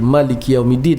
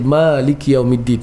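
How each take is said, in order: First: The first vowel is short and quick. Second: The first vowel is drawn out long. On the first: It follows a reading without the lengthening. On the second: It follows a reading with the lengthening.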